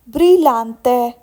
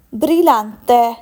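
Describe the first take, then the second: No difference in how they are said.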